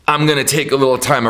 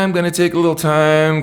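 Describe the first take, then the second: First: It sounds firm and determined. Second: It sounds casual and unhurried.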